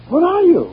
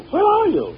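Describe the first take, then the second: First: Loud and high, calling through the house. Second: Called higher but less loud; a second, higher call into the house; calling again. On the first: Husband searching the house calls loudly for his wife. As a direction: shout it to a far room. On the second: Husband calls once more for his missing wife. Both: Acted.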